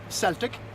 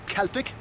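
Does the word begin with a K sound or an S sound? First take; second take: S sound; K sound. First: The word begins with a soft S sound. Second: The word begins with a hard K sound. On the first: It refers to a sports team. The speaker calls it wrong. "not Celtic. That's the football team from Glasgow" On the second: It refers to the ancient people and culture. The speaker calls it right. "that's pronounced Celtic"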